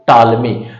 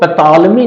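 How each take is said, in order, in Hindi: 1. यह नाम t ध्वनि से शुरू होता है। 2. यह नाम p ध्वनि से शुरू होता है। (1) "पी को साइलेंट कर लीजिए" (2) "इसको पैथॉलमी नहीं कहेंगे"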